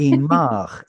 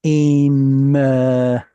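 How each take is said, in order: First: "Imach" with stress moved back onto MACH; full "ah" vowel in "Imach", ending on ch; pausal form. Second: "imcha" drawn out, stressed on final cha; expected regular form. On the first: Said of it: "pausal moves the stress back one". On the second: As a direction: stretch "imcha" syllable by syllable, landing on CHA. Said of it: "This should have been". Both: Shown as a demonstration.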